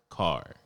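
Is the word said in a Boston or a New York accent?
New York. It is said in a New York accent, with the r.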